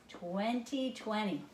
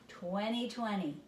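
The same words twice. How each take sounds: Both takes have the same delivery.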